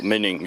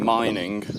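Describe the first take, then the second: First: The name is said with German pronunciation. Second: The name is said with English pronunciation.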